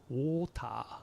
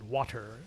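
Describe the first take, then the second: First: It is said with Japanese katakana-style syllables. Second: The middle consonant is a clear T sound. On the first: "katakanization of water" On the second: "in British English... they actually pronounce the T sound"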